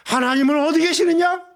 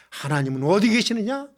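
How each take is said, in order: First: Raised, louder preacher's challenge; ringing rhetorical demand; emphatic repeated question. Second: Said in the usual way. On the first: Acted. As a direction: pitch the question high and press it on the congregation.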